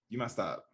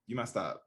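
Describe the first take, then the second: First: It is said in a blunt, accusing tone. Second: The same.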